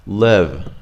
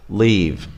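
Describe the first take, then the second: First: "Live" with a lax ih vowel; "Live" said as LIHV; short I. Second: "leave" with a tense ee vowel; "leave" said as LEEV; long E. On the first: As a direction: keep the vowel in "Live" loose, as in "sit". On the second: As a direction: tighten and lengthen the vowel in "leave". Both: Shown as a demonstration. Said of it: "Try to say them differently".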